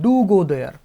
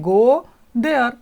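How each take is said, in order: First: "Do" pushed for emphasis; extra weight on "Do", the rest plain; stress on do. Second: Said in the usual way. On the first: Shown as a demonstration. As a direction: lean hard on "Do" before "go there". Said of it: "ज़्यादा जोर देके कहना". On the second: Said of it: "तो हम क्या बोलेंगे".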